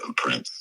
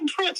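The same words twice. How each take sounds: First: It is said in a flat, monotone voice. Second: It is said in a lively, expressive voice. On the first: "and monotone" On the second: "I thought you was going to go like"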